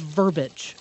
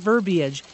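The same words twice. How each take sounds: First: It is said in two syllables, like verbage. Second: It is said in three syllables, with an ee sound. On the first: The speaker calls it wrong. "There's no such word as verbiage" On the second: The speaker calls it right. "You're thinking of verbiage"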